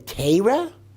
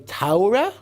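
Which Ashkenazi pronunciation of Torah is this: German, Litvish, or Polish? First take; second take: Litvish; German. First: It is said with Litvish Ashkenazi pronunciation. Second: It is said with German Ashkenazi pronunciation. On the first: "which is the Litvischer pronunciation" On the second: "which is the German pronunciation"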